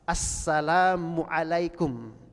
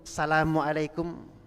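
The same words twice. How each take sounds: First: It is said with a clear opening 'as' sound. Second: It is said without the opening 'as' sound. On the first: The speaker calls it right. "As as ah" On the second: The speaker calls it wrong. "Ada alif lam tidak itu?"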